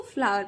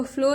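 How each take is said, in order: First: "फ्लावर" in two syllables, "flaa-var"; "फ्लावर" with aa instead of o; correct pronunciation. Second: "फ्लो" as one syllable, rhyming with "go"; "फ्लो" with a plain long o; wrong pronunciation. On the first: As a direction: say "फ्लावर" with an open aa, then var. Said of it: "इसको फ्लावर पढ़ेंगे". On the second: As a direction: misread flower as "फ्लो". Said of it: "इसको फ्लो नहीं पढ़ेंगे हम". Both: Shown as a demonstration.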